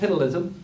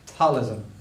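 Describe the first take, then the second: First: The opening P is pronounced aloud. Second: The opening P is silent. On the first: The speaker calls it wrong. "it's not called piddleism" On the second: The speaker calls it right. "pretend you're saying a P, but don't actually say it"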